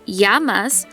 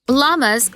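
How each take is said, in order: First: The word begins with a Y sound. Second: The word begins with an L sound. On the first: The speaker calls it right. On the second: The speaker calls it wrong.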